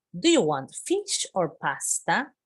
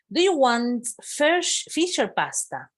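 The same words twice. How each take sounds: First: Said in the usual way. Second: High, slow, bright-voiced offer like a flight attendant; teacher playing the cabin crew, asking high and slow; lively model question. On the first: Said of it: "teacher repeats the question". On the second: Shown as a demonstration. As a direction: ask it up high and slowly, like serving a passenger. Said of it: "teacher models flight attendant question".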